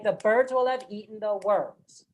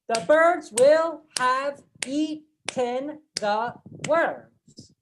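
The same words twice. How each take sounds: First: The unstressed words are shortened and rushed. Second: Every word is said fully and evenly. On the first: The speaker calls it right. "Naturally, we say" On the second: The speaker calls it wrong. "we are not saying ... it's too much of a mouthful"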